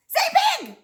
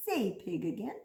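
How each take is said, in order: First: High, loud burst of enthusiasm; excited prompt. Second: Low, soft prompt to repeat; low coaxing. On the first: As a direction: call it out high and loud to the kids. Cheering children to repeat a word. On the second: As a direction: coax them gently in a low, quiet voice. Coaxing children to repeat a word. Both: Shown as a demonstration.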